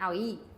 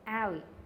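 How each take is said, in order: First: The stress is on the second syllable. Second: The stress is on the first syllable. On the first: The speaker calls it wrong. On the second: The speaker calls it right. "the first syllable is the accented one"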